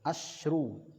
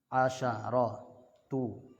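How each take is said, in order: First: The sh sound is followed by no vowel. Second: The sh sound is followed by an a vowel. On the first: The counted noun is feminine. "Kalau ma'dudnya muannas dibaca sukun" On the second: The counted noun is masculine. "shin itu dibaca fathah kalau ma'dudnya muzakkar"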